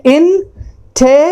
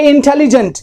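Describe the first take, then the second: First: "intelligent" in four parts, in, te, li, jent, with long pauses; split into syllables. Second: Said in the usual way. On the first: Shown as a demonstration. Teacher counting vowel sounds in the word, syllable by syllable. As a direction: break "intelligent" apart syllable by syllable. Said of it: "इसको यदि हम part करेंगे तो कहेंगे". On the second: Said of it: "इसको यदि हम part करेंगे".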